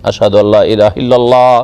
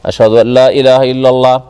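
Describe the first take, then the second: The two takes are said the same way.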